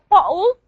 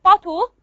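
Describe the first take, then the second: First: Bottle with a glottal stop for the tt; glottal replacement. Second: Said in the usual way. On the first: Shown as a demonstration. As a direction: say bottle as "bo'le", catch in the throat. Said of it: "what we call glottal replacement". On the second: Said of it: "glottal replacement or glottalization is allophonic".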